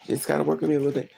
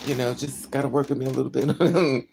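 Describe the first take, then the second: First: Quicker repeat. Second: Said in the usual way. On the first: Retold or imitated. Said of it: "repeated faster". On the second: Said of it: "retold apology".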